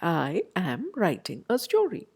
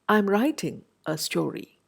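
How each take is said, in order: First: I am is said as two separate full words. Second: I am is compressed into one syllable. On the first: "with all the words intact" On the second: "the am there becomes compressed"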